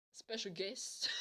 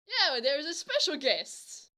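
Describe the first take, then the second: First: Soft retold question; doubtful echo. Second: Imitated girl, higher and slower; eager confirmation. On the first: He queries the girl's surprise, doubtful. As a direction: hand it back quietly, puzzled. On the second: Girl confirming her surprise to him, eager. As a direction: announce it with drawn-out relish.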